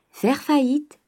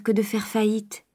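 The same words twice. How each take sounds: First: High, pointed repeat of Faire faillite; sharp echo. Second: Said in the usual way. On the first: Acted. Father echoing his daughter's question, high and pointed. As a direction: fling the word faillite back at her. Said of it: "reprit le père". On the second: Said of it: "demanda Eugénie".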